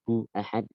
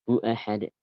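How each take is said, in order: First: There is a break before ahad. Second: It flows straight on without any break. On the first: The speaker calls it wrong. "Nggak boleh" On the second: The speaker calls it right. "Langsung seperti itu"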